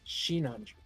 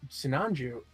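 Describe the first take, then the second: First: The name begins with an 'sh' sound. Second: The name begins with a plain 's' sound.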